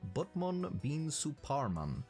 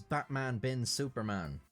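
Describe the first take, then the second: First: The vowels sound like 'u' in cut. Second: The vowels sound like 'a' in cat. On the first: It is read as a Javanese name. The speaker calls it right. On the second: It is read as the English superhero names. The speaker calls it wrong.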